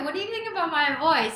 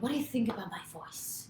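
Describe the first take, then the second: First: It is asked in a light, casual tone. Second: It is asked in a heavy, serious tone.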